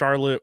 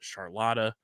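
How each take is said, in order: First: The name ends with a 't' sound. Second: The name ends with an added 'ah' vowel.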